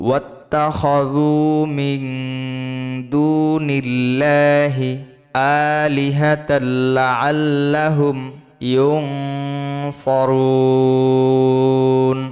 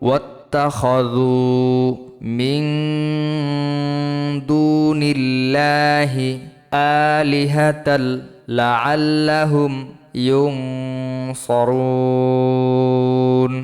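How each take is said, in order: Both takes have the same delivery.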